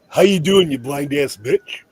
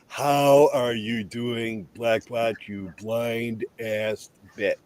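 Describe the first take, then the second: First: It is said at normal, faster speed. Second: It is said slowly and deliberately.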